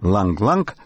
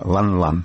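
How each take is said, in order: First: Each syllable ends in an ng sound. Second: Each syllable ends in a plain n sound. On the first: This is how the name is said in America. "как его именуют в Америке" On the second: This is how the name is said in Russia. "в России, кстати, его называют именно так"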